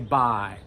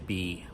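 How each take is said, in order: First: The vowel sounds like the word 'bye'. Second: The vowel sounds like the letter 'B'. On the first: The speaker calls it right. "we say bi" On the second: The speaker calls it wrong. "We don't say B"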